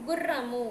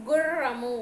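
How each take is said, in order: First: గుర్రము with a brief double r; normal double r. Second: గుర్రము with a long, forceful trilled rr; bandi-ra trill. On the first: Teacher shows pupils the normal ra, short rr in గుర్రము. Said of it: "ఇక్కడైతే ఎలా పలుకుతాము". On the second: Teacher contrasts bandi-ra for pupils, strongly trilled rr in గుర్రము. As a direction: press and roll the rr in గుర్రము. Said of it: "అది ఈ రా ఉన్నప్పుడు". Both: Shown as a demonstration.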